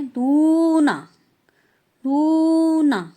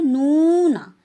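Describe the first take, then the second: First: "नूना" slow, softened toward d; how Koreans say "नूना"; Korean pronunciation. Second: "नूना" said the Indian way, plain n; Indian-style pronunciation. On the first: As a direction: show the Korean "नूना" slowly. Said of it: "Korean कैसे pronounce करते हैं". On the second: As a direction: imitate how Indians say "नूना". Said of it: "हम क्या बोलते हैं". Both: Shown as a demonstration.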